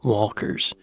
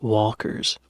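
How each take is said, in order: The two takes are said the same way.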